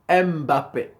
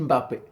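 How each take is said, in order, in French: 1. Le M se prononce comme un son distinct et séparé. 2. Le M se fond dans le son B qui suit. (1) "ils disent Mbappé. Ils prononcent le M" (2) "chez nous les Camerounais, on dit Mbappé"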